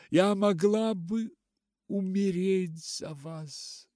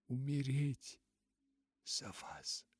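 First: Loud, high, anguished cry; sobbing outburst. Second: Broken repeat sinking to a whisper; sobbing, fading. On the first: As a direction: cry it out through sobs, pitched high. (громко, надрывно, всхлипывая) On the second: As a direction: let the words die away into breath. (всхлип, затихающий до шёпота) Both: A narrator's reading. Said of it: "всхлипнула она".

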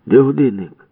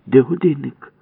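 First: High, loud threatening question; menacing demand. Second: High, loud demand; demanding shout. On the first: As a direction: jaw thrust, threaten. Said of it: "грізно сказав Ява". (грізно, з висунутою щелепою) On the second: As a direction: bark the question at him. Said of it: "вигукнула Валька". (вимогливий вигук) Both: Acted.

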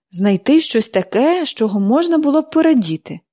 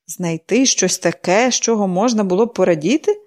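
First: Pollyanna earnestly sets out her puzzle; eager explaining. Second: Scornful echo. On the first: Girl explains her game. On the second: Mrs Snow echoing the girl's words back, scornful. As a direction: repeat it as if it's absurd. Sick woman repeats it scornfully. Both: A narrator's reading.

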